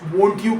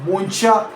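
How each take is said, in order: First: The t and y stay separate sounds. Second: The t and y blend into ch.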